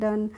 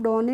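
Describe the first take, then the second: First: The word is said as one syllable, dun. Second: The word is said as two syllables, doe-nay. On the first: The speaker calls it right. "तो इसको हम पढ़ते हैं डन" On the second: The speaker calls it wrong. "इसको हम डोने नहीं पढ़ते हैं"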